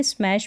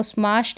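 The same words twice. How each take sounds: First: Said in the usual way. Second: स्मैश with a long open "aa", like "smaash"; स्मैश mispronounced with an "aa" vowel; wrong pronunciation. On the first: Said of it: "स्मैश पढ़ेंगे". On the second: Shown as a demonstration. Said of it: "इसको स्मैश नहीं पढ़ेंगे".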